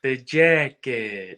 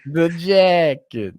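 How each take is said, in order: First: Slow, drawn-out menacing line; Richie quote. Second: Slow, louder, higher menacing echo; Richie quote. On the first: Quoting Richie to a fan, slow and menacing. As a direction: lean on it like a threat. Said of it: "quoting Richie line". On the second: Echoing his cohost's Richie quote, slow menacing. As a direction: relish the threat slowly. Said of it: "echoing Richie line". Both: Retold or imitated.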